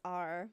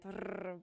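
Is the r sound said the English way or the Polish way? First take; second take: English; Polish. First: The r is said the English way. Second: The r is said the Polish way. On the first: "in English it's r" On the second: "in Poland we say it r"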